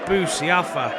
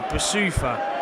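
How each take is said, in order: First: The middle syllable sounds like 'sia'. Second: The middle syllable sounds like 'soo'. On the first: The speaker calls it wrong. "not Boussiafa, how I said before" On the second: The speaker calls it right. "It's Boussoufa"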